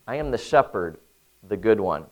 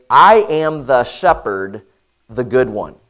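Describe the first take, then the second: First: Said in the usual way. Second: "I" stressed, slow and louder; slow emphatic reading with "I" punched. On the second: Shown as a demonstration. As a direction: lean hard on "I am the shepherd". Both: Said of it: "In the Greek, it's emphatic".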